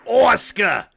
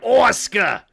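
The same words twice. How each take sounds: First: It is said in a New Jersey accent. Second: The same.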